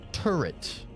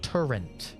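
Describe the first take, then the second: First: The word is said without an N sound. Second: The word is said with an added N sound. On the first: The speaker calls it right. "T U R R E T. No N" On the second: The speaker calls it wrong. "Where's the N coming from"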